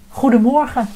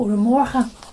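First: The voice sounds clearer and easier to hear. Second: The voice sounds less clear and harder to hear. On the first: The speaker calls it right. "Zo kun je me straks beter horen, let op" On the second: The speaker calls it wrong. "Oh, ik vergeet iets"

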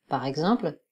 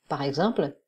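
No difference in how they are said.

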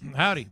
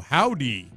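First: The greeting is said smoothly and plainly. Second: The greeting is said with exaggerated extra flourish. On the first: The speaker calls it right. "You got to say it with smooth" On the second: The speaker calls it wrong. "You don't put extra stuff on it"

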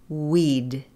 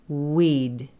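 The two takes are said the same way.

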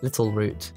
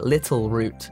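First: The T in the middle is dropped. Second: The T in the middle is clearly pronounced. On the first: "I'm so bloody British that I don't even pronounce with T's" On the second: "when I say it right"

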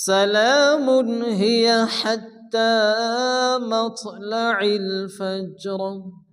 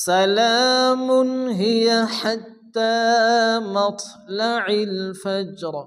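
The two takes are said the same way.

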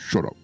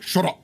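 First: It is said quietly and quickly. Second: It is said loudly and aggressively.

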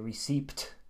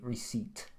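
First: A P sound is heard before the T. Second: No P sound is heard before the T. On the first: The speaker calls it wrong. "there's a P in there, so Finns often say receipt, but this is wrong" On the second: The speaker calls it right. "You don't say the P at all"

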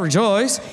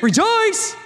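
First: The word is said flatly, with little energy. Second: The word is said with lively, celebratory energy. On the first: It expresses no real celebration. The speaker calls it wrong. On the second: It expresses real celebration. The speaker calls it right. "Like it is"

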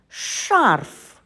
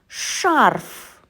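No difference in how they are said.

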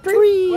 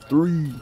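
First: It is said in a high, squeaky pitch. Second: It is said in a very low, deep pitch. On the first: The ball is short. "they'll kind of squeak it" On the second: The ball is deep. "really low"

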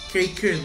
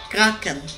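First: The word is pronounced the English way. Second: The word is pronounced a non-English way. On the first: The speaker calls it wrong. "Awalnya saya baca sosok Inggris gitu" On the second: The speaker calls it right. "Taunya yang betul"

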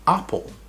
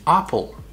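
The two takes are said the same way.

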